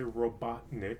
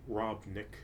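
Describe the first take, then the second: First: The name is said with three full syllables. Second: The name is said with two syllables only. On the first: "let me say Robotnik" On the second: "some people have been saying uh, Robnik"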